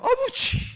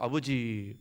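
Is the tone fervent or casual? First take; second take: fervent; casual. First: It is said fervently, with strong feeling. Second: It is said casually, without much feeling.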